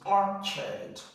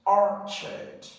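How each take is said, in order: First: The second syllable has a reduced uh vowel. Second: The same.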